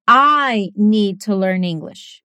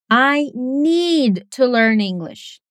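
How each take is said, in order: First: Very slow, "I" stressed most. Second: Very slow, "need" stressed most. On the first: Teacher showing a speaker who stresses "I". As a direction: lean on "I" as in: me, not someone else. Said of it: "O que que essa pessoa tá enfatizando?". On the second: Teacher showing a speaker who stresses "need". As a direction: lean on "need" to show the urgency. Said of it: "em cada caso, a pessoa quer chamar sua atenção pra uma coisa diferente". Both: Shown as a demonstration.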